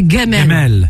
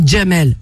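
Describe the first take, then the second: First: The name begins with a hard G sound. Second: The name begins with a soft J sound. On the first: "Vous n'avez pas le J. ... Mais vous, c'est Gamel" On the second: "nous, on dit Jamel"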